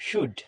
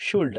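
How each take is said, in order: First: শুড with a silent L; correct pronunciation. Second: শুল্ড with the L sounded; common mispronunciation. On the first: Teacher correcting students' mistake, correctly pronounced without the L. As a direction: say শুড as "shood", no L at all. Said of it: "এটার উচ্চারণ হবে". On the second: Teacher showing students the usual mistake, mispronounced with an L. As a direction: pronounce the L in শুল্ড, before the D. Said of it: "এটাকে বলে থাকি ... এটার উচ্চারণ শুল্ড না". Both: Shown as a demonstration.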